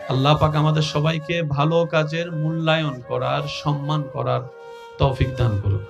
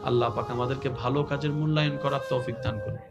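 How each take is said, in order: First: The prayer is said more loudly. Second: The prayer is said at normal, softer volume.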